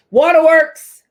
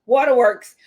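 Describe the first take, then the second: First: Title called out high and loud; excited announcement. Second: Said in the usual way. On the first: Acted. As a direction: announce it like a show segment. Announcing next tip title.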